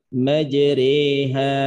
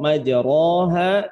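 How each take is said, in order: First: The vowel after the r is an 'e'. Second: The vowel after the r is an open 'a'. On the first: The speaker calls it right. "tapi dibaca dengan majreha" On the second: The speaker calls it wrong. "bukan lagi dibaca dengan majro, majroha"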